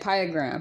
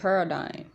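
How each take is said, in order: First: The word ends with a 'gram' sound. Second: The word ends with a 'dime' sound. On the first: The speaker calls it wrong. "I said piegram" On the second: The speaker calls it right. "He said paradigm"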